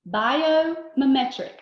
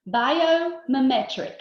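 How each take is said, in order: First: "Biomimetic" repeated slowly and loudly, syllables spaced. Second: "Biomimetic" said slowly and loudly, each syllable spaced. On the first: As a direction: model "Biomimetic" again for them to copy. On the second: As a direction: spell out "Biomimetic" for the class to repeat. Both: Shown as a demonstration. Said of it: "repeat after me with this word".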